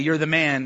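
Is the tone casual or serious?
casual. It is said as cool, casual praise.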